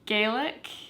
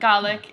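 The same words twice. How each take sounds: First: The word is pronounced the Irish way. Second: The word is pronounced the Scottish way. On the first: "is how they pronounce it in Ireland" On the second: "but Gaelic in Scotland"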